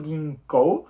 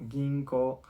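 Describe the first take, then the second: First: Ginkou with a clear final U sounded; wrong long vowel. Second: Ginko, slower, the final vowel a plain O; right reading. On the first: Teacher showing students the reading to avoid. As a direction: pronounce every letter of ginkou. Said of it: "no he dicho ginkou". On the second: Teacher giving students the correct reading of ginko. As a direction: say ginko without the U. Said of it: "sino ginko". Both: Shown as a demonstration.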